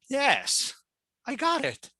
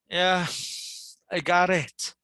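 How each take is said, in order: First: The voice sounds annoyed and irritated. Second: The voice sounds tired and sleepy. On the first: The listener is impatient with what was said. "someone might be annoyed already or irritated" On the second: The listener is willing but tired. "Someone might be sleepy"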